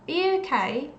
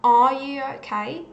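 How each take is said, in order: First: The word 'are' is cut very short. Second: The word 'are' is said in full. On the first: "There is a very short sound there, a very short sound" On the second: "it's not the strong form, definitely not the strong form, as in"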